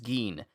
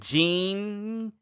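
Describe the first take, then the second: First: The name begins with a hard g sound. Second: The name begins with a soft j sound. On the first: The speaker calls it right. "but it's Geen" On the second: The speaker calls it wrong. "I did pronounce Ging's name wrong. I said Jing"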